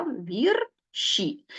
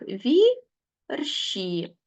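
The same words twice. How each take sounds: First: Said in the usual way. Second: Вірші said very slowly, syllable by syllable: вір-ші; split into syllables. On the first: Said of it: "мабуть, так краще буде". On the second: Shown as a demonstration. Teacher shows pupils how вірші splits into syllables, slowly. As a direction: stretch вірші out, pausing between вір and ші. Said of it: "Як ми це зробимо? Ось так".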